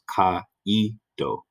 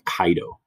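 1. Das a und i trennen sich in drei Silben. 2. Das a und i verschmelzen zu zwei Silben. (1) "Caído instead of" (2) "which is two syllables"

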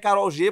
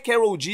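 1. O nome é dito com pronúncia espanhola. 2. O nome é dito com pronúncia não espanhola. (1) "Eu acho que é Karol G, porque ela é colombiana" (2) "eu acho que a pronúncia nem é Karol G"

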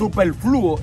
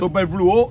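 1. El acento cae en la u. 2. El acento cae en la o final. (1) "superfluo es en la U" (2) "superfluo es en la O"

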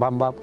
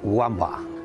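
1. El nombre empieza con sonido B. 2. El nombre empieza con sonido W. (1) "se recalca que es Bamba" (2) "siempre lo pronunciaban Wamba"

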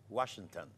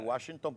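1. La palabra se pronuncia sin sonido parecido al chino. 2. La palabra se pronuncia de forma que suena a chino. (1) "es Washington" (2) "no se dice Washington porque suena chino"

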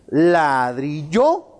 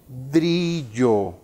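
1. La sílaba tónica está en la última. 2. La sílaba tónica está en la primera. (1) "O si identificamos en yo" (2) "enfatizamos, por ejemplo, la palabra o la sílaba la"

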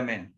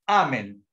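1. El acento cae en la última sílaba. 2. El acento cae en la primera sílaba. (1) "en lugar de amén" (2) "en latín, cuando uno termina el Padre nuestro... uno dice amén"

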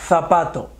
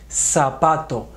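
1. La z suena como th. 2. La z suena como s. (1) "ni decimos zapato" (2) "Lo correcto es decir"

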